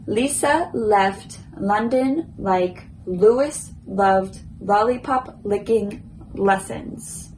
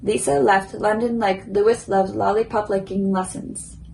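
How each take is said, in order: First: The sentence is said at a slow pace. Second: The sentence is said at a moderate pace.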